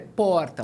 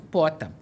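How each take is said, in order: First: The r sound before the t is pronounced. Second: The r sound before the t is dropped. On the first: This is the adult's correct model. The speaker calls it right. "não, filho, é porta" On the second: This is how the child says it. The speaker calls it wrong. "Ela fala isso, pota"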